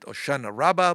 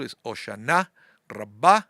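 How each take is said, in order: First: It is said in the local American pronunciation. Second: It is said in the Israeli Sephardic pronunciation.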